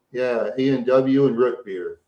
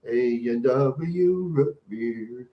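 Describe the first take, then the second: First: Said in the usual way. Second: "A and W root beer." stretched out very slowly; slow savoring. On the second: Pretend. Dreamily savoring the root beer for the chat, very slow.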